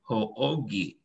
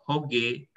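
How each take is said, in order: First: The two o sounds are said as separate beats. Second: The o sounds merge into one single o. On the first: This is what the regular rule would predict. The speaker calls it wrong. "Kalau aturan normal kan harusnya menjadi ho-o-ge" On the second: This is the form actually used. The speaker calls it right. "dia langsung lebur aja sekali aja o"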